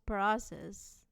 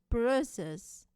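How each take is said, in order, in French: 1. Ça se prononce en anglais américain. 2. Ça se prononce en anglais britannique. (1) "En anglais américain, ça prononce" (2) "En anglais britannique, ça prononce"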